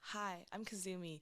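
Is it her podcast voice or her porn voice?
podcast voice. It is said in her podcast voice.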